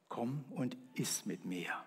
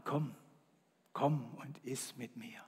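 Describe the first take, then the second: First: Softer, gentle, slow; quiet invitation. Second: Whispered, soft invitation. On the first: Acted. God invites the man to eat, softly. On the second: Shown as a demonstration. Jesus invites to communion, whispering. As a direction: breathe it like a secret. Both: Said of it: "Das nenne ich leise".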